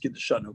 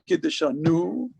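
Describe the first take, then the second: First: The stress falls on the normal syllable. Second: The stress falls on an unusual syllable. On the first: The speaker calls it right. "It's pronounced kiddishanu" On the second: The speaker calls it wrong. "we'll put the emphasis on the wrong syllable"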